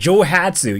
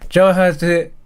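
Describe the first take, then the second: First: It is said with English-style lively mouth movement. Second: It is said flat with barely moving mouth.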